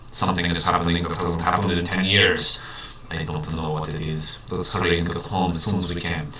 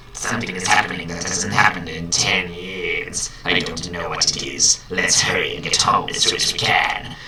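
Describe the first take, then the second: First: A hint of a Russian accent, low and hushed; lightly voiced Russian doctor. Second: Lightly voiced sinister emperor; a hint of a scheming old villain; Palpatine voice. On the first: Doctor Roy urging his bird home in a light Russian accent. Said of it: "that's not actually a Russian accent". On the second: Doctor Roy telling his bird to hurry in a light Palpatine voice. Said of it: "I'm gonna do Palpatine".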